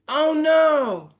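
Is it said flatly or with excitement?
excitement. It is said with strong excited feeling.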